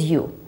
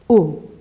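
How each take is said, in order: First: The vowel sounds like the letter's name. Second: The vowel is a short sound. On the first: The speaker calls it wrong. "sometimes this U we don't pronounce as U" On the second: The speaker calls it right. "we pronounce it as U"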